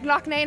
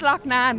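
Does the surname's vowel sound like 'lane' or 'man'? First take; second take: lane; man. First: The surname's vowel sounds like 'lane'. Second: The surname's vowel sounds like 'man'. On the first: This is how other people mispronounce the name. The speaker calls it wrong. "they keep saying it all over the world. They're like Loch Nane" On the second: This is the name's true pronunciation. The speaker calls it right. "No, your name's Loch Nan"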